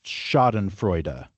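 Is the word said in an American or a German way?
German. It is said with a German pronunciation. "I have to pronounce this, I think, German word"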